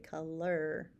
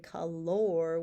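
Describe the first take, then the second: First: The last syllable sounds like er. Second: The last syllable sounds like or. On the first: The speaker calls it right. "we say color. Okay, it's kind of sounds like that er" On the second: The speaker calls it wrong. "we don't say color"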